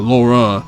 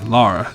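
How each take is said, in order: First: The first vowel sounds like 'law'. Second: The first vowel sounds like 'car'. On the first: The speaker calls it wrong. "her name is not Laura" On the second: The speaker calls it right. "it's Lara"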